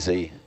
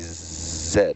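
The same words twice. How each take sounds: First: The letter is pronounced zee. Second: The letter is pronounced zed. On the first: "Americans say Z" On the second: "Canadians say Z"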